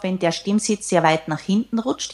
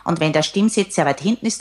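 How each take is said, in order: First: Swallowed, back-of-throat sound like Kermit; demoing a tinny, throaty voice; Kermit the Frog voice. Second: Hollow, throaty demo voice; lightly voiced Kermit sound; tinny back voice. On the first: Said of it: "Ich mach das jetzt mal vor. Das klingt dann so ein bisschen wie Kermit". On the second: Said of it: "dann klingt das auch ein wenig blechern". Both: Shown as a demonstration. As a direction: voice placed far back, tinny.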